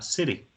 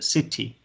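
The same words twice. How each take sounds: First: It is said with an American accent and soft t. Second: It is said with a British accent and clear t. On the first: "el americano les dirá city" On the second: "El inglés británico es más puro y maneja más las T's, es decir, para ellos la T es una T. Es decir, ellos le van a decir city"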